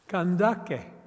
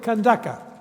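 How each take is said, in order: First: The word ends with an 'e' vowel. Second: The word ends with an 'a' vowel. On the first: This is the Nubian pronunciation. "In Nubian, you should say kandake" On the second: This is the Arabic pronunciation. "in Arabic you will say kandaka"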